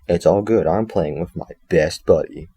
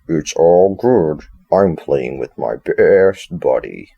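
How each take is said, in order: First: It is said in the speaker's normal voice. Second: It is said in a put-on Freddy voice.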